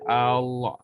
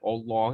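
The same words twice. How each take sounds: First: The first vowel sounds open, like 'a'. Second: The first vowel sounds rounded, like 'o'. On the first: The speaker calls it right. "Kalau A ... akan jadi Allah" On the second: The speaker calls it wrong. "O kan Allah kan"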